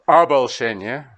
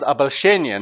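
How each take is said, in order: First: "обольщение" with the stress shifted onto the musical beat; "обольщение" stressed to fit the rhythm; stress bent by the beat. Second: "обольщение" with its natural Russian word stress; correct stress. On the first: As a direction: say "обольщение" the way the bar line forces it. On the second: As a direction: say "обольщение" the normal Russian way, stress where a native puts it. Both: Shown as a demonstration. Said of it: "kind of not right here, because обольщение, not обольщение".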